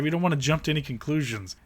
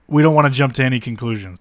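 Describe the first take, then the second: First: Said in the usual way. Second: We don't wanna jump to any conclusions said louder, stress on don't; sarcastic louder repeat. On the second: Real, not acted. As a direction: repeat it louder, mocking the caution. Repeated line, louder second.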